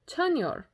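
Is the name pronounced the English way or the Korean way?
Korean. The name has a Korean-style pronunciation. The speaker calls it right. "I'm going to say Chanyeol"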